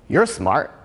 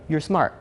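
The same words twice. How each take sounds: First: It sounds sarcastic, like an insult. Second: It sounds sincere, like a compliment.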